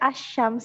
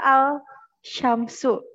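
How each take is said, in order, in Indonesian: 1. Bunyi 'l' menyatu menjadi 'sh' ganda. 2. Bunyi 'l' diucapkan sebelum 'sh'. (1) "tapi dibaca Asyams gitu" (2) "tulisannya pada Al Syamsu gitu"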